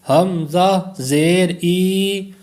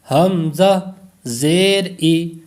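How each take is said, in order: First: The final vowel is drawn out long. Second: The final vowel is short and unjerked. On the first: The speaker calls it wrong. "तो ये दराज हो जाएगा, लंबा हो जाएगा" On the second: The speaker calls it right. "ना तो हमने इसको दराज किया, लंबा किया"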